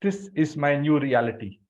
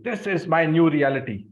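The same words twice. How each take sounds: First: Said in the usual way. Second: "This is my new reality" declared louder; loud, firm affirmation; loudly. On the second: Shown as a demonstration. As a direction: proclaim it out loud to the room.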